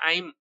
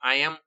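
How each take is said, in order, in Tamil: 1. இது சுருங்கி ஒரே அசையாக ஒலிக்கப்படுகிறது, I'm. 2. இது இரண்டு முழு வார்த்தைகளாக ஒலிக்கப்படுகிறது, I am. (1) "ஐம் அப்படின்னு சொல்லணும்" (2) "ஐ எம் அப்படின்னு சொல்லக்கூடாது"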